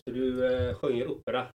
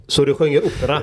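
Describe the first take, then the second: First: Soft, half-swallowed question; quiet, mumbled question; quiet aside. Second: Said in the usual way. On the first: Real, not acted. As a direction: murmur it almost to yourself. Repeats question, first barely audible.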